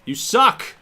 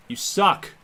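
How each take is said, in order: First: Much higher and louder jeering shout; full heckler shout. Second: Higher, louder mock heckle; taunting yell. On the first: Pretend. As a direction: yell it like a rowdy fan in the stands. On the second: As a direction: jeer at the batter. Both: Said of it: "I'm gonna talk so much crap to him".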